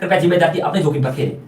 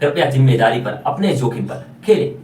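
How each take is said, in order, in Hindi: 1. वाक्यांश बहुत जल्दी-जल्दी बोला गया है। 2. वाक्यांश धीरे और साफ़ बोला गया है। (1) "इतनी तेज बोलेंगे कि जिम्मेदारी और जोखिम के बीच का अंतर ही नहीं पता चलेगा।" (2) "ऐसे बोलना चाहिए"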